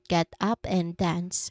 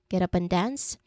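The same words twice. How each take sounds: First: Each word is said slowly and separately. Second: The words run smoothly together with linking. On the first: "If we say it slowly, word by word" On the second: "the connected speech"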